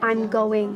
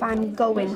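First: The final g sound of going is pronounced. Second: The final g sound of going is dropped. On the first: It is standard English. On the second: It is dialect rather than standard English.

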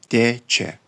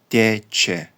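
Both takes have the same delivery.

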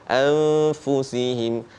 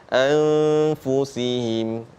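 No difference in how they are said.

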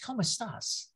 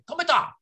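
First: It is said in a non-Cuban accent, final s pronounced. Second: It is said in a Cuban accent, final s dropped. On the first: "my wife has a fit. She goes, it's ¿Cómo estás?" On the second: "the kind of language will go like this... very a type of Cuban"

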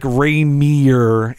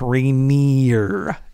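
First: The name is said without a clear N sound. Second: The name is said with a clear N sound. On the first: The speaker calls it wrong. "I have said it like Rainier" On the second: The speaker calls it right. "It's Rainier with an N"

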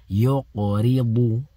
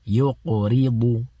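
No difference in how they are said.

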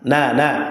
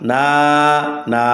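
First: The vowel is short and quick. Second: The vowel is drawn out slowly. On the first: The speaker calls it right. "হরকতের মানে তাড়াতাড়ি" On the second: The speaker calls it wrong. "যদি এভাবে বলে তাহলে তার পরে কি হবে না, সহি হবে না"

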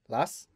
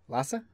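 First: The name ends on the s sound. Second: The name ends with an added a sound. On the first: The speaker calls it wrong. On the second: The speaker calls it right.

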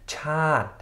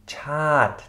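Both takes have the same delivery.

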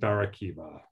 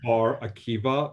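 First: The name is said with an Americanized pronunciation. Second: The name is said with an Israeli pronunciation. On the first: This is the form the name took in America. "it's sort of been Americanized to Barakiva" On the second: This is the family's original form of the name. "it's originally okay. Bar hyphen Akiva, which would be Bar Akiva"

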